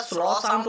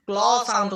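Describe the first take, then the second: First: স্ল sound with an s-l blend at the start; wrong CL sound. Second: ক্ল sound with a k-l blend at the start; the hard-c reading, ক্ল; correct CL sound. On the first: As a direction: say স্ল with a hissed s, not k. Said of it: "না, এটা কিন্তু আমরা করব না". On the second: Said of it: "যখনই C এর পরে এল চলে আসবে". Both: Shown as a demonstration.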